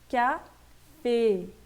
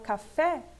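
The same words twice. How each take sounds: First: The final vowel is said the French way. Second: The final vowel is said the Portuguese way. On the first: The speaker calls it right. "a fonética aqui é E. Então eu tenho que ler café" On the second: The speaker calls it wrong. "em português eu falo café"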